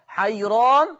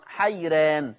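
First: حيران with a thick, heavy ra and open a; حيران said with the r full and velarised; تفخيم الراء في حيران. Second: حيران with a thin, light ra, the a toward e; حيران said with the r light and fronted; ترقيق الراء في حيران. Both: Shown as a demonstration. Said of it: "هكذا تقرأ بجواز التفخيم والترقيق".

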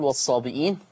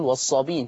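First: والصابئين with the hamza sounded, as-sabi'in; والصابئين read the Hafs way, hamza kept. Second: والصابين with no hamza, as-sabin; والصابين read the Warsh way, long ii straight into n. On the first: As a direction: pronounce والصابئين with a glottal stop before the ii. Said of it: "حفص يقول". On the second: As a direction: say والصابين with the glottal stop dropped. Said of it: "ورش يقرأ ويقول". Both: Shown as a demonstration.

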